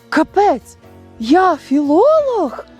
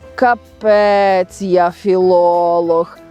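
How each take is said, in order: First: It is said with surprised discovery. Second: It is said with doubtful uncertainty. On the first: The speaker discovers a new ability in themselves. "І це є відкриття людиною своїх нових здібностей" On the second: The speaker doubts their own knowledge. "Тобто невизначеність, сумнів у своїх знаннях"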